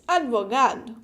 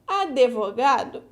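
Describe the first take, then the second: First: The D is said with no vowel after it. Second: An extra vowel sound follows the D. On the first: "we should pronounce the D alone like this" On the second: "we pronounce advogado with an E"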